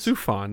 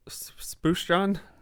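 First: The first syllable has a plain 's' sound. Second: The first syllable has a 'sh' sound. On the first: "There you go" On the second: "how you say it?"

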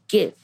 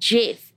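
First: The word begins with a hard G sound. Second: The word begins with a soft J sound. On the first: The speaker calls it right. "It should be like GIF" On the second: The speaker calls it wrong. "you don't pronounce it like GIF"

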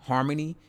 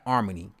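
First: The word starts with an audible H sound. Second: The word starts directly with a vowel.

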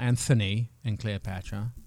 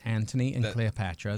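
First: The name has a th sound as in thin. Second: The name has a plain t sound, no th. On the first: This is the American way of saying the name. The speaker calls it wrong. "It's not Anthony and Cleopatra" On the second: This is the English way of saying the name. The speaker calls it right. "It's Anthony and Cleopatra"

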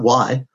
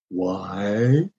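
First: It is said quickly and lightly. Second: It is said slowly and deliberately.

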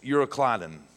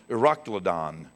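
First: The word is said as spelled, like 'Euro'. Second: The word is said in the less literal way. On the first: "I like this phonetically pronounced" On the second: "there are two pronunciations"

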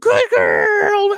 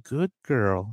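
First: It is said loudly and over-excitedly. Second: It is said calmly and gently.

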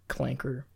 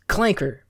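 First: The word is said in a plain, neutral tone. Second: The word is said with a venomous, hostile tone.

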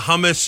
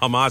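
First: The word is said as 'hum-mus'. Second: The word is said as 'ha-mas'. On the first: The speaker calls it wrong. "he changed the emphasis on the A" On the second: The speaker calls it right. "instead of hamas"

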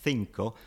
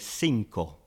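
First: The first consonant is a th sound. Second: The first consonant is an s sound. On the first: This is how it is said in Spain. "You have got a lisp for number five" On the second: This is how it is said in South America. "Whereas in Spanish from South America, they say"

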